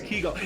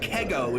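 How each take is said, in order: First: The first syllable sounds like 'key'. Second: The first syllable sounds like 'keg'. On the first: The speaker calls it right. "it's Kigo" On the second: The speaker calls it wrong. "It's not Kego"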